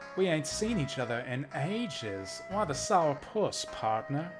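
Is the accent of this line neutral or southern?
southern. It is read in a southern American accent. The speaker calls it right.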